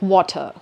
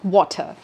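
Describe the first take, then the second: First: The final R sound is dropped. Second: The same.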